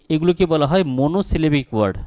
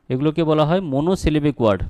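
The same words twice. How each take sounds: The two takes are said the same way.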